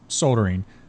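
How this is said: The word is said in a British accent.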